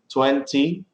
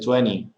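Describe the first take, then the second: First: The T after the N is clearly pronounced. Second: The T after the N is dropped. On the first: "instead of saying twenty" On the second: "the T is not pronounced"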